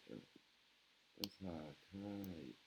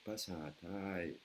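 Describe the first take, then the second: First: Pa, sa, thaï whispered syllable by syllable; whispered repeat. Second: Slow syllables. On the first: Teacher to French learners, repeating the Thai word in a whisper. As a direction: breathe Pa, sa, thaï with no voice. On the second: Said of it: "Le langage". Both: Shown as a demonstration.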